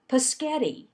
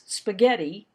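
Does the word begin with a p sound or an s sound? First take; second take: p sound; s sound. First: The word begins with a p sound. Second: The word begins with an s sound. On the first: The speaker calls it wrong. "I didn't pronounce spaghetti correctly" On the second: The speaker calls it right.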